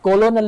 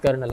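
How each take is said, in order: First: It is said as three syllables, 'ko-lo-nel'. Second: It is said as two syllables, 'ker-nel'. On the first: The speaker calls it wrong. "ये कोलोनल लिखा हुआ है" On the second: The speaker calls it right. "Pronunciation जो सही है वो इसकी कर्नल है"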